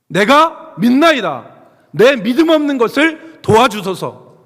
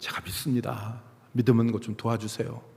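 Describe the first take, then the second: First: It is shouted loudly. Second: It is said quietly.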